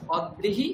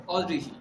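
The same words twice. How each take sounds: First: "অদ্রিহি" as od-drihi with held d; split form. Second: "অদ্রিহি" as o-drihi, open o; fuse d with ri in "অদ্রিহি"; joined form. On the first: Teacher sums up first of two, d split. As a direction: close "অদ্রিহি" first syllable on d, then drihi. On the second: Teacher sums up second of two, dri joined. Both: Shown as a demonstration. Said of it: "একটা হচ্ছে অদ্রিহি".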